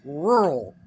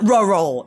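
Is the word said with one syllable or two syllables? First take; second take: one syllable; two syllables. First: The word is said with one syllable. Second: The word is said with two syllables. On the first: The speaker calls it right. "It's rural" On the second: The speaker calls it wrong. "It's not rural"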